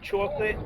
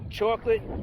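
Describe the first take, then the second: First: It is said in a New York accent. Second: It is said in the speaker's plain accent.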